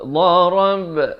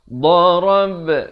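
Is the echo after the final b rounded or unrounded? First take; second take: unrounded; unrounded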